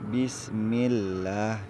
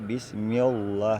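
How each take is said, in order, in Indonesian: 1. Bunyi 'l' pada Allah terdengar tipis dan ringan. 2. Bunyi 'l' pada Allah terdengar tebal dan penuh. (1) "untuk baris bawah dibaca tipis" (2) "jangan dibaca bismillah, salah"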